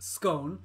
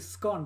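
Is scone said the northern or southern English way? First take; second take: southern; northern. First: The word is said in a southern English way. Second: The word is said in a northern English way. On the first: "I'm back to southern. So I now would call it scone" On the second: "I know northerners say scone"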